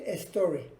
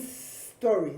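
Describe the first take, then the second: First: An extra e sound comes before the s. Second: The s links straight onto the previous word. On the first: The speaker calls it wrong. "la tentación de decir story... para evitar meterle una E" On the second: The speaker calls it right. "la pronunciamos pegada a la palabra anterior"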